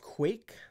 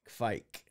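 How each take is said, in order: First: It sounds like English quake, with no V. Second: A subtle but clear V sound follows the K. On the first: "sort of like earthquake" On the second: "with a subtle V sound"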